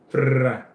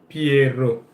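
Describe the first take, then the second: First: The word is clipped to one short syllable. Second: The word is said in full, two syllables. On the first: The speaker calls it wrong. "You don't say Pra" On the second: The speaker calls it right. "you actually say Piero"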